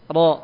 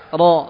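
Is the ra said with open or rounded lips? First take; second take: open; open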